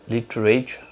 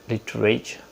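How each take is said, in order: The two takes are said the same way.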